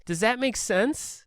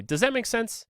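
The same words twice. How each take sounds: First: Higher, slow, doubtful mock plea; sad, pathetic tone. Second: Higher, breezy confident check-in; articulate check-in. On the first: Narrator mimics the confused man doubting his own words, slow sad plea. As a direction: sound like you doubt yourself. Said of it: "the tone that he uses is so sad and pathetic". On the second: Shown as a demonstration. Speaker demos asking students after a clear explanation, confident light question. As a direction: ask it like a clear teacher checking in. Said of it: "hopefully I would be articulate and I would say".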